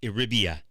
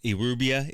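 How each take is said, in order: First: The vowel after the r is an 'i' sound. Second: The vowel after the r is a 'u' sound. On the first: The speaker calls it right. "It's with an I, not a U" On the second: The speaker calls it wrong. "I pronounce it incorrectly. I was saying Irubia"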